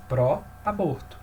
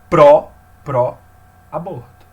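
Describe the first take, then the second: First: Said in the usual way. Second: "Pró" split off and hit hard and slow, then "pró-aborto" with "pró" stressed; loud, slow demo of the stressed "Pró". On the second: Shown as a demonstration. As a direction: slowly punch the stressed syllable "pró" in "pró-aborto". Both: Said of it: "Esse pró daqui tem uma sílaba tônica".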